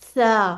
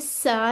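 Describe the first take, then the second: First: It has a soft th sound without whistle. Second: It has a sharp, whistling s sound. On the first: The speaker calls it right. "जबान की टिप अगर हम बाहर निकाल लेना तो फिर ... इसमें सीटी नहीं आती" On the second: The speaker calls it wrong. "अब ये सा नहीं करना"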